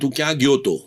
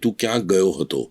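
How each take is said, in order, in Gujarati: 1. છેલ્લો શબ્દ ટૂંકાવીને 'to' બોલાય છે. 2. છેલ્લો શબ્દ પૂરો 'hato' તરીકે બોલાય છે. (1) "હું મારા ઘરમાં એમ બોલીશ" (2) "હું સ્ટેજ ઉપર હું એમ બોલીશ ... એ સાચું ગુજરાતી છે"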